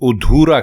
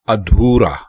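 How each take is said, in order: First: The word begins with a 'u' vowel. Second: The word begins with an 'a' vowel. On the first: The speaker calls it wrong. "लोग गलत बोलते हैं और उधूरा कहते हैं" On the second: The speaker calls it right. "दुरुस्त लफ्ज अधूरा"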